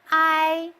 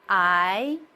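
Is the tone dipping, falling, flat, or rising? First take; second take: flat; rising. First: The pitch stays level and high. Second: The pitch rises from middle to high. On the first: "The first tone is flat" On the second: "The second one is upward"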